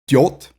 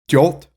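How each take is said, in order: No difference in how they are said.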